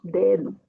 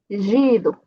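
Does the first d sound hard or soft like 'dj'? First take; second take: hard; soft. First: The first d is a plain hard d sound. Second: The first d is softened into a 'dj' sound. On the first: The speaker calls it right. "só dedo" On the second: The speaker calls it wrong. "não posso dizer gido"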